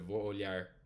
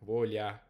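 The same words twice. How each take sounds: First: The final R sound is pronounced. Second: The final R sound is dropped. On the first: "instead of" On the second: "like a caipira says in Portuguese, just get rid of it"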